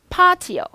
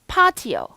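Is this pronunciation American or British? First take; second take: British; British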